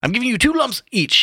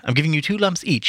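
First: Very high-pitched, lively delivery; high character voice. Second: Moderately raised, more contained pitch; a polite tea-pourer, only lightly pitched up; Haynes's character voice. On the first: Haynes pouring tea for the others, high-pitched voice. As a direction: pitch it right up. First take of Haynes, then corrected. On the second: Haynes pouring tea, reader's retake in milder voice. Second take after "Oh, wait. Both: A narrator's reading.

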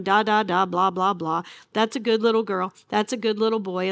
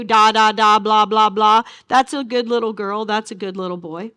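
First: A light hint of talking down to babies; mild baby talk. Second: Put-on loud, sing-song talking down to a toddler; mocking baby talk. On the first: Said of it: "address them in baby talk". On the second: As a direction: coo at them like babies, with scorn. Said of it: "God will speak to this people in baby talk".

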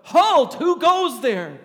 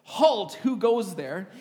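First: Huge bellowed halt, much higher and louder, slow; full-force guard's shout, stretched slow; loudest yell. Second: Firm soldier's challenge, louder; stern sentry challenge, raised but controlled; strong commanding voice. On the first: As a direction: roar it out like a soldier ambushing from behind a tree. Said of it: "in the loudest voice I could, I yelled out". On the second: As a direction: call the halt like a guard. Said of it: "in a strong voice like". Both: Retold or imitated.

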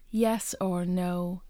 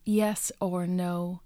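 No difference in how they are said.

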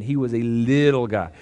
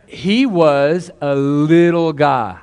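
First: Said in the usual way. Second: "he was a little guy" stretched slow, with a louder push on "little"; drawn-out emphasis. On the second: Real, not acted. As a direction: savour the words slowly, as if showing something tiny. Stressing how tiny the baby was.

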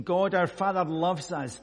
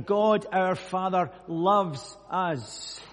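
First: Said in the usual way. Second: "God our Father loves us" drawn out very slowly and louder; slow emphatic repeat. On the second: Shown as a demonstration. Preacher repeats the verse slowly for emphasis. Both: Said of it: "I'll just say that again".

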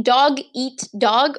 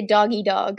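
First: DOG EAT DOG slowly, with a distinct T ending "eat"; spaced-out "dog eat dog", every word distinct; clearly separated words. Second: "doggy dog", first two words merged into DOGGY; "doggy" as one word, then "dog"; run-together mishearing. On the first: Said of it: "or did he say doggy dog". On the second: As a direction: say "doggy dog" with no T, like a pet name. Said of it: "did he say dog eat dog". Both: Shown as a demonstration.

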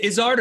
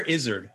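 First: Izzard said as iz-ARD; ZARD pronunciation. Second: Izzard said as IZ-erd; ZERD pronunciation. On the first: Asking host which is correct, Izzard as iz-ARD. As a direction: say Izzard with a full "ard" ending. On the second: Asking host which is correct, Izzard as IZ-erd. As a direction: say Izzard with a reduced "erd" ending. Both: Shown as a demonstration. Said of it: "What's the correct way?".

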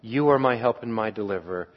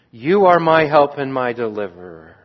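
First: You are my help and my deliverer, repeated much softer; soft affirmation. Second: Said in the usual way. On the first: Shown as a demonstration. Psalmist affirming trust in God, soft prayerful repeat. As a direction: say it gently, as a private prayer. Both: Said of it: "second confident affirmation".

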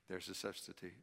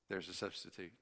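Both takes have the same delivery.

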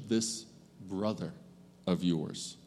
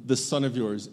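First: Brother slowed and set apart, dropped softer; tender emphasis on brother; stress on brother. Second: Said in the usual way. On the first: Shown as a demonstration. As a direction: lean on the word brother, with pauses. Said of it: "into relationship". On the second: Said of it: "the father pivots from".

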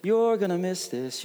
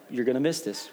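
First: Sung country chorus. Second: Said in the usual way. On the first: Shown as a demonstration. Pastor singing his wife's favorite country song to church, singing. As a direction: sing it as a country tune, without instruments.

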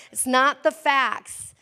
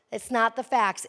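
First: Slow and loud, "It's not the facts" punched word by word; emphatic preaching line; stress on facts. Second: Said in the usual way. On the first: Shown as a demonstration. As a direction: drive home "facts". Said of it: "repeated line, first punched". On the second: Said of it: "repeat softer".

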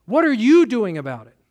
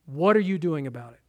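First: "you" pressed hard, at normal level; pointed challenge. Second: Softer, lower, asked almost to himself; soft inward question. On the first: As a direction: put it straight to the listener. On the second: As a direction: let the question sink in quietly. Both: Shown as a demonstration.

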